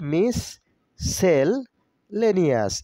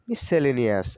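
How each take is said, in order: First: The word is split into separate syllable chunks. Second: The word is said smoothly as one unit.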